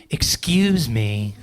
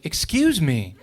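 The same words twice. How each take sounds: First: Long-drawn, low excuse me; get out of my way. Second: Quicker excuse me, falling sharply on ME; offended excuse me. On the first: Lady trying to get by on the elevator, pointedly drawn out. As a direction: drag it out to push someone aside. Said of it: "it's how you say it". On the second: Lady objecting that he's in her space, affronted. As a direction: object as if someone is blocking you. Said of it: "she would have been in my way". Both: Acted.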